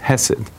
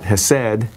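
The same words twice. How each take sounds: First: The stress is on the first syllable. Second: The stress is on the second syllable. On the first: The speaker calls it right. "The emphasis is on the first symbol, a syllable" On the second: The speaker calls it wrong. "It's not hesed"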